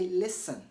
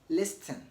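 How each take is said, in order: First: The T sound is silent in the middle. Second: A T sound is pronounced in the middle. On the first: The speaker calls it right. "Say listen" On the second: The speaker calls it wrong. "So never say listen"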